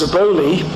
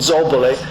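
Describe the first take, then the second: First: The name is pronounced with anglicized sounds. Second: The name is pronounced with Italian sounds. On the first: This is how the man was commonly known. "but known as Zaboli" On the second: This is how the name is said in Italian. "in Italian we would pronounce the name Zobole"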